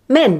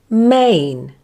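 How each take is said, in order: First: The vowel is one short, clipped sound. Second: The vowel glides from one sound into another. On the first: The speaker calls it wrong. "Or even shorten it like this" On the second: The speaker calls it right. "the first sound is slightly longer than the second sound and has more emphasis, like this"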